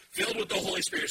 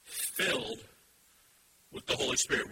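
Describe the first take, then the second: First: "Filled with the Holy Spirit" proclaimed much higher and fast; preacher hammering "Filled with the Holy Spirit" home; emphatic proclamation. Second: Said in the usual way. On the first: Shown as a demonstration. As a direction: lift the whole phrase up high and drive it. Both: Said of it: "notice this next phrase".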